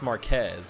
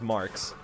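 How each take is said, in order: First: The name is said as Marquez. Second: The name is said as Marks. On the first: The speaker calls it wrong. "He pronounced my name as uh, Chris Marquez" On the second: The speaker calls it right. "It's just pronounced Marks"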